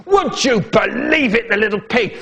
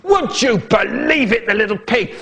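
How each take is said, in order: First: Higher, indignant dad voice; outraged dad. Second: Roaring dad. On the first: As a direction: play the shocked father. Dad's outraged voice. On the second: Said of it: "My dad is roaring". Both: Acted.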